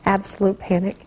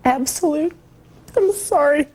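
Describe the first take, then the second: First: Said in the usual way. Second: Tearful, pitch cracking upward; fighting back tears; voice breaking. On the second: Real, not acted. Mother breaks down recalling children.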